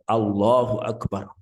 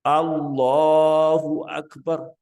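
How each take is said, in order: First: The vowel in 'Allah' is held only briefly. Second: The vowel in 'Allah' is drawn out longer. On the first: The speaker calls it wrong. "kalau dibaca Allahu Akbar itu tidak afdol" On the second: The speaker calls it right. "yang bagus adalah istilahnya al-isra"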